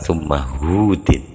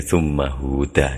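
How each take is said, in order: First: The last word ends with an 'in' sound. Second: The last word ends with an 'a' sound. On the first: The word surah is understood before the name. The speaker calls it wrong. "Ngarokatinya keliru" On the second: The name stands alone without the word surah. The speaker calls it right. "mestinya huda"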